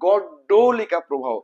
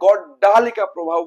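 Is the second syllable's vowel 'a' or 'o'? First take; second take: o; a. First: The second syllable has a short 'o' vowel. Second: The second syllable has a long 'a' vowel. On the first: The speaker calls it right. "এই জায়গাতে গড্ডলিকা প্রবাহ" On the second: The speaker calls it wrong. "অনেকে গড্ডালিকা প্রবাহ বলে, ... যেটা একেবারে pure ভুল।"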